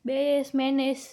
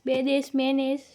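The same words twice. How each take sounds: No difference in how they are said.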